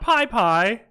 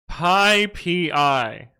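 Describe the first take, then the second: First: The name ends with a repeated pie syllable. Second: The name ends with the letters P and I. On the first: The speaker calls it wrong. "not Pi Pi" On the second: The speaker calls it right. "it is Pi P I"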